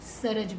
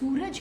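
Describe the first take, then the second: First: The first vowel is a short a sound. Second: The first vowel is a long oo sound. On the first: The speaker calls it wrong. "अगर हम ये आवाज़ निकाल दें" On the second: The speaker calls it right. "हम सूरज कहते हैं"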